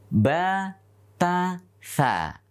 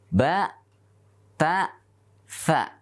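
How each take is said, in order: First: The syllables are said plainly, without emphasis. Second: The syllables are said with emphasis. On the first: The speaker calls it wrong. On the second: The speaker calls it right. "Tapi dengan tekanan"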